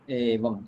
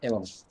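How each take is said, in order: First: The first vowel is held long. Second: The first vowel is cut short. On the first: The speaker calls it right. "still we have to pronounce it with a long form" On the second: The speaker calls it wrong.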